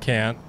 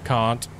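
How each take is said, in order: First: It is said with an American accent. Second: It is said with an Australian accent. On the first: "in the US it'd be like can and can't" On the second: "And in Australia"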